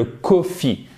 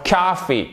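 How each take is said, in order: First: "coffee" as ko-FEE with a closed French o; "coffee" Frenchified as koh-fee; pronunciation to avoid. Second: "coffee" as KAH-fee, long open first vowel; "coffee" stressed first, with an ah sound; American vowel demo. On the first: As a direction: say "coffee" with a rounded o, French style. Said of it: "pour éviter le coffee". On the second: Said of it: "pour ça que je vous l'ai mis". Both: Shown as a demonstration.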